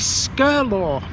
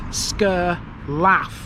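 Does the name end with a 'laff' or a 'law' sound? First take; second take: law; laff. First: The name ends with a 'law' sound. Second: The name ends with a 'laff' sound. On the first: The speaker calls it right. "This is Skirlaw" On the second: The speaker calls it wrong. "you think it says Sker Laugh"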